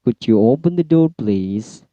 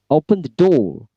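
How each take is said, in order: First: Request intonation. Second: Firm, high-pitched order, falling on "door"; high command intonation. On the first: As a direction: ask courteously, easing off on "please". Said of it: "request use lower intonation". (permintaan sopan, "please" diturunkan) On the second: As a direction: give a command in a raised pitch. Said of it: "high intonation". (perintah dengan intonasi tinggi) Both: Shown as a demonstration.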